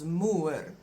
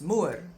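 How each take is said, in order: First: The word is said slowly and carefully. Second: The word is said quickly. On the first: "that becomes moer" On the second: "if you really pronounce it quickly"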